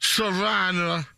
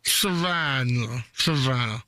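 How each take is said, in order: First: Slowly spelling out Savannah; drawn out over a mouthful; slow repeat. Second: Slow, lower Savannah; slow repeat. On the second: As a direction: drag the word out. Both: Pretend. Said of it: "I have stuff in my mouth".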